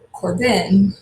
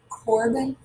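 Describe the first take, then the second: First: The stress is on the second syllable. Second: The stress is on the first syllable. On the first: The speaker calls it wrong. "second syllable" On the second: The speaker calls it right. "first syllable?"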